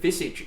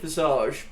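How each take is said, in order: First: The word has an English-style pronunciation. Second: The word has a French-style pronunciation. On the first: "visage is actually the English pronunciation of the word" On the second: "I've always said Visage, ... with a French m- motif"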